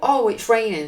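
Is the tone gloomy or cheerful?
cheerful. It is said in a cheerful, upbeat tone.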